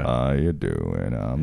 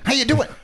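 First: It is said in a slow, low, gloomy voice. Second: It is said in a lively, upbeat, energetic voice. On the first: The character is tired and mopey now. "I envision my penis's voice as being kind of like Eeyore" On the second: The character was eager to mingle when younger. "He was just much more energetic back then"

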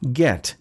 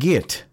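First: The vowel sounds like the one in 'bet'. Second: The vowel sounds like the one in 'bit'. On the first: The speaker calls it right. "the word is get" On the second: The speaker calls it wrong. "not git"

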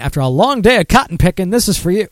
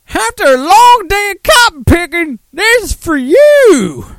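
First: It is read in the speaker's plain voice. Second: It is read in a Southern accent.

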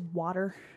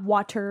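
First: It is said like 'wooder', Philly-style. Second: It is said with a clear neutral 't'.

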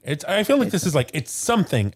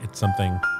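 First: It is said with excited, exclamatory energy. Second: It is said in a flat, unexcited way. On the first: The speaker calls it right. "exclamation mark" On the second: The speaker calls it wrong. "not like"

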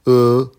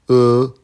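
First: The pitch stays high and level. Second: The same.

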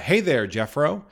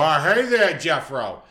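First: It is said in the speaker's plain accent. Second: It is said in a drunk Massachusetts accent.

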